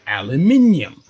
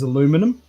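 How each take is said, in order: First: It is said the speaker's own regional way. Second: It is said the American way. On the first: "we say aluminium" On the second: "when America says aluminum"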